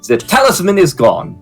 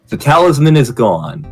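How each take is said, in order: First: It is read with a German accent. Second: It is read in the reader's ordinary accent.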